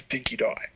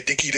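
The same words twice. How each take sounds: First: "Dinky Die" with a long "die" like the word die; Australian "Dinky Die", ending on "die". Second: "Dinky D" ending on a plain "dee"; American "Dinky D", ending in "dee". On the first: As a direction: say "Dinky Die", second word rhymes with eye. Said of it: "the pronunciation of the dog is". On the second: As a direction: say "Dinky D" with the last word as the letter D. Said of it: "so Dinky D to Dinky Die". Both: Shown as a demonstration.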